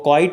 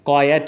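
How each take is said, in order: First: It sounds like quite, one syllable. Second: It sounds like quiet, two syllables. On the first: The speaker calls it wrong. "वो क्वाइट नहीं है" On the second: The speaker calls it right. "क्वायट है"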